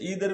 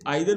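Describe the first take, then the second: First: The word begins with an 'ee' sound. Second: The word begins with an 'eye' sound. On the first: "इसे ईदर भी बोलते हैं" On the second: "इसे आइदर भी बोलते हैं"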